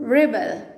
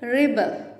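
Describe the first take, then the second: First: The first syllable sounds like 'rib'. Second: The first syllable sounds like 'rib'.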